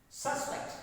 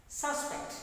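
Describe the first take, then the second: Both takes have the same delivery.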